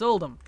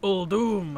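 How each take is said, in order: First: The second syllable sounds like 'dum'. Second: The second syllable sounds like 'doom'. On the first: It is how the speaker learned it from reading. The speaker calls it right. "It's one U" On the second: It is how the in-game characters said it. The speaker calls it wrong. "Why is it Old Doom? Why why Doom? Because that's how the N P Cs said it"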